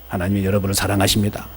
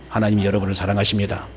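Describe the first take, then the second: Both takes have the same delivery.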